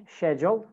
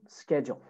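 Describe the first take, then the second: First: British "schedule", SHED-jul; British pronunciation. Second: American "schedule", SKED-jul; American pronunciation. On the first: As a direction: start "schedule" with SH. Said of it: "British schedule". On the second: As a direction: start "schedule" with SK. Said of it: "American schedule". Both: Shown as a demonstration.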